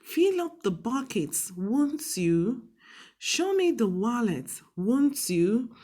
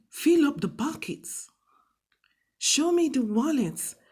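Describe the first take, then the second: First: Polite command with falling tone on won't you; polite request. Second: Blunt, bossy order with no tag; bossy command. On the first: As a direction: ask nicely so they can't refuse. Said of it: "we are making it look more polite". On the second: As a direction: bark it like a bossy boss. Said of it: "It's not too bossy, like". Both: Shown as a demonstration.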